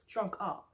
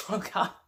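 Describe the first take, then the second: First: Said in the usual way. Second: Laughing. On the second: Real, not acted. Repeats a phrase about Melissa.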